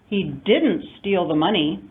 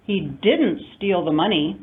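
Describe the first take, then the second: First: The word didn't carries the main stress. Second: The word didn't carries the main stress.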